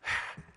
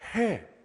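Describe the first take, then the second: First: It is only an exhaled breath, without voice. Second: It is said aloud as a voiced syllable. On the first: The speaker calls it right. "우리의 숨을 내쉬는 해입니다" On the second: The speaker calls it wrong. "저처럼 말로 해라고 하지 않고"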